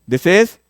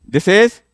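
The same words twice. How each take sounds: Both takes have the same delivery.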